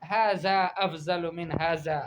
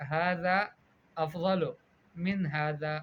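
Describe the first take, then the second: First: Slow "افضل" said afzal with z; mispronounced ذ and ض. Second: "افضل" as afdal, word by word with pauses; correct ذ and ض. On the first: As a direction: read "ھذا افضل" slowly with z for both sounds. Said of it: "تحریف کرتی ہو". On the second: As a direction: model "ھذا" with th, "افضل" with heavy d. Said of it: "قولی، آپ کہیں". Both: Shown as a demonstration.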